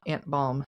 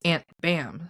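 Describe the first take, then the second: First: The vowel sounds like the one in 'balm'. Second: The vowel sounds like the one in 'bam'. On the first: The speaker calls it wrong. "it's not Aunt Balm" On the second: The speaker calls it right. "It's Aunt Bam"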